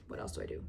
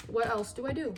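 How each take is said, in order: First: Whisper. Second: Said in the usual way. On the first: Shown as a demonstration. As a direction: repeat the question in a whisper. Repeats question in whisper.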